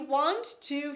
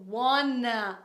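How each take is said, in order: First: Both words are said fully and separately. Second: The words merge into one reduced word.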